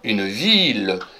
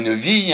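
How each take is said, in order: First: The word ends with a clear L sound. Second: The word ends in a vowel, no L. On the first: The speaker calls it right. "on dit bien une ville" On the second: The speaker calls it wrong. "on dit pas une vie"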